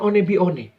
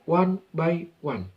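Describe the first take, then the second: First: The middle word sounds like 'bee-oh-neh', read as spelled. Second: The middle word sounds like 'bye', English style. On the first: The speaker calls it wrong. "Bukan One Bione" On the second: The speaker calls it right. "tapi one by one"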